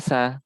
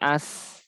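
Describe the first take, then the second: First: The final vowel is pronounced in full. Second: The final vowel is dropped after the s. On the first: The speaker calls it wrong. "tidak dibaca asa" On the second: The speaker calls it right. "tapi as yang menjadi sukun"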